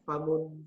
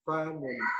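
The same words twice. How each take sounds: First: The first vowel is kept short. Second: The first vowel is drawn out long. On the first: The speaker calls it right. "Maka harus" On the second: The speaker calls it wrong. "seperti yang dilafatkan Pak Amin tadi, ... itu seolah-olah ... ditulis menjadi fa alif mim"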